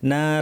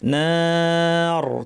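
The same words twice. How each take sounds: First: The final r is light and thin. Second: The final r is heavy and full. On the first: The speaker calls it wrong. "অনেকে ভুল করেন" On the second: The speaker calls it right. "রটা ভারী হবে"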